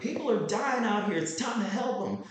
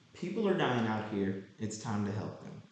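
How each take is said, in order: First: It is said dramatically, with passion. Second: It is said calmly, with little energy.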